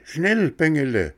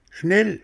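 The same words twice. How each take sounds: First: High goat bleat, schnell falling away; a goat's urgent bleat sliding down. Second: High, rising goat bleat on the first word. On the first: Goat on the rock urging Bengele, falling bleat. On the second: Goat on the rock urging Bengele, high bleating cry. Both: Acted. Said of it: "meckerte die Ziege".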